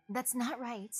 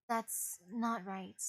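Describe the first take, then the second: First: Said in the usual way. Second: Slow, grim. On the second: Acted. Repeats line slowly and quietly.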